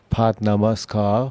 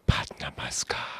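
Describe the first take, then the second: First: The word is spoken in a normal voice. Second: The word is whispered without full voice.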